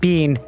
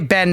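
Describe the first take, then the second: First: The word rhymes with 'seen'. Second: The word rhymes with 'ten'. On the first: "not Bean" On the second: "I definitely say Ben"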